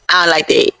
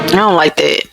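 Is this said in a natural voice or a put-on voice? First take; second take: put-on; natural. First: It is said in an imitated character voice. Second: It is said in the speaker's natural voice.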